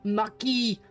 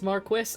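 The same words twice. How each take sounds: First: The word is said the French way. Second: The word is said the English way. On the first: "What is it in French?" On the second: "I've just been told it's Marquis"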